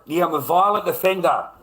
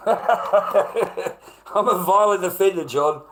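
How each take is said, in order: First: Loud, high mock confession; sarcastic. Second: Slow, high, loud and laughing through it; laughing sarcasm. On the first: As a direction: throw the label back at them with scorn. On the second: Acted. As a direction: laugh the accusation off as absurd. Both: Sarcastic self-mockery about a label.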